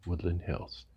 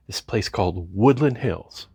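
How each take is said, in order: First: Woodland Hills said lower and much softer, deadpan; a resigned, quiet Woodland Hills; deadpan reveal. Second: Said in the usual way. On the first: Real, not acted. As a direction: drop Woodland Hills low and soft as the punchline. Deadpan reveal of his home.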